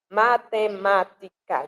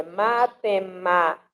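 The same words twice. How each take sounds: First: MATEMÁTICA slowly as ma-te-má-ti-ca; five grammatical syllables. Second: MATEMÁTICA as ma-te-má-tca, last two syllables squeezed into one; poetic syllable count. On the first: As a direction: give all five syllables of matemática separately. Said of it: "cinco sílabas gramaticais". (matemática devagar, em cinco sílabas: ma-te-má-ti-ca) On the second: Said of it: "Mas poeticamente é". (matemática em quatro sílabas poéticas: ma-te-má-tca) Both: Shown as a demonstration.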